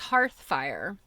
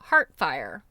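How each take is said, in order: First: A 'th' sound comes before 'fire'. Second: No 'th' sound comes before 'fire'. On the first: The speaker calls it right. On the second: The speaker calls it wrong.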